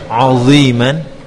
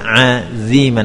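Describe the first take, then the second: First: The ain is pronounced thick and heavy. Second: The dha is pronounced thin like dhal. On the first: "Yang pertama ainnya jadi tebal" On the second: "ainnya tepat dibaca dengan tipis aziman, namun dha-nya dibaca ... seperti huruf dzal"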